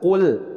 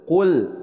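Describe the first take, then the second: Both takes have the same delivery.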